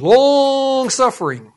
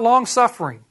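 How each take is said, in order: First: "long" drawn right out; stress on long. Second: Said in the usual way. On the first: Real, not acted. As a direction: stretch "long" for emphasis, then finish "suffering". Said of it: "And I mean long suffering".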